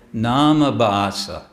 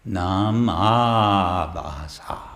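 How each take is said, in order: First: The vowel after 'nam' is short. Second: The vowel after 'nam' is long. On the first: The speaker calls it wrong. "they'll say" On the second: The speaker calls it right. "It's a long A"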